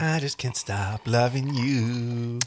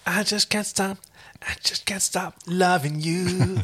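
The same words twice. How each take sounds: First: Slow lovesick line. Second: High breathy lovesick whisper; breathy longing whisper. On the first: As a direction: drag out the longing slowly. Second slow take. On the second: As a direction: sigh it like a lovesick cowboy. Brokeback parody, breathy whisper. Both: Pretend.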